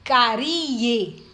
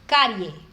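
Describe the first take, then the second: First: The I is said strongly, as a full vowel. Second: The I is said weakly, gliding into the E. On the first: The speaker calls it wrong. "Eu não falo carie" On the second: The speaker calls it right. "o I, ele é pronunciado com menos força"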